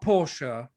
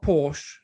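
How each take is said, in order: First: The name is not pronounced the English way. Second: The name is pronounced the English way. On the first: The speaker calls it right. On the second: The speaker calls it wrong.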